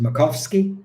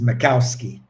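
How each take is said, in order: First: The name is said the Polish way. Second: The name is said the English way. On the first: "Polish people pronounce it Makowski" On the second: "English people pronounce it Makowski"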